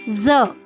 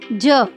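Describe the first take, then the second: First: The consonant is ज changed by the nukta. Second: The consonant is plain ज without the nukta. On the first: "अगर मैं इसके नीचे बिंदी यानी कि नुक्ता लगा दूं तो ये बन जाएगा ज" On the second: "अगर मैं बोलती हूँ इसे, तो मैं इसे क्या बोलूंगी?"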